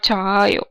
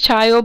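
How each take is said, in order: First: The vowel is drawn out long. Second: The vowel is short, one quick syllable. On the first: The speaker calls it wrong. "but not chayo" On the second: The speaker calls it right. "it becomes chayo"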